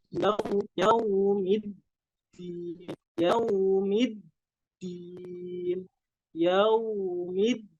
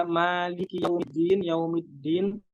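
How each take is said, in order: First: "yaumiddin" chanted slowly, leaning on the doubled d; pressed dal. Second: "Maliki yaumiddin" said quickly without pressure on the d; unpressed dal. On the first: Teacher corrects students, slow "yaumiddin" with pressed dal. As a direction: hold and press the d of "yaumiddin", then a long i. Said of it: "Tapi harus ada tekanan". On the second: Teacher shows what to avoid, "yaumiddin" with no pressure. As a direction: run through "yaumiddin" with no stress on the doubled d. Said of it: "Jangan seperti itu". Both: Shown as a demonstration.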